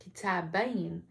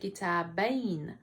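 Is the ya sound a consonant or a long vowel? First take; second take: consonant; consonant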